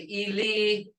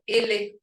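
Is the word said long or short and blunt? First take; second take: long; short. First: The word is said longer, not blunt. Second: The word is said short and blunt. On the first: It means dead. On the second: It means a person's foot.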